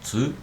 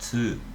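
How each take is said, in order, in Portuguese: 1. A sílaba começa com um som de ts. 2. A sílaba começa com um som de ts.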